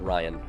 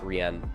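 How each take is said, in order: First: The first syllable sounds like 'rye'. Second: The first syllable sounds like 'ree'. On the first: The speaker calls it right. "pronounced like Ryan" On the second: The speaker calls it wrong. "not Rian"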